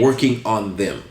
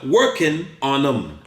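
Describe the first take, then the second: First: Every sound is fully pronounced. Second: The g is dropped and them is reduced. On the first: This is the formal textbook way. The speaker calls it wrong. "The technical way to say it was" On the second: This is how people really talk. The speaker calls it right. "把它 G 删掉 ，no G"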